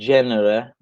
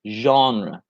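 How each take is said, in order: First: The word starts without a soft z-like sound. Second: The word starts with a soft z-like sound. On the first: The speaker calls it wrong. "it looks like you would say genre" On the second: The speaker calls it right. "the pronunciation is genre. So you kind of make a Z"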